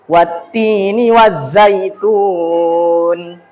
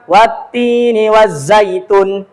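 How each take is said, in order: First: The vowel in the last syllable is held long. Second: The vowel in the last syllable is short. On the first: The speaker calls it right. "Tetap panjang meskipun kita nada cepat" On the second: The speaker calls it wrong. "Jangan dibaca"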